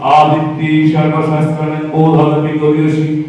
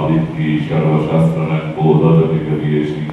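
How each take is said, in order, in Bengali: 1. এটা উঁচু মূল পিচে বলা হচ্ছে। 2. এটা নিচু মূল পিচে বলা হচ্ছে। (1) "এখানে স্কেলটা আমি চেঞ্জ করলাম, পা সা রে গা মা পা পা" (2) "সা সা"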